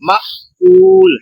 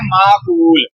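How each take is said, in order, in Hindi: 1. ग्लॉटल कैच छोटे पहले अक्षर को बंद करता है। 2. पहला स्वर बिना कैच के लंबा खींचा जाता है। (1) "यहाँ पर भी सुकून है, जज्म है" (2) "जो गलत गलत पढ़ते हैं"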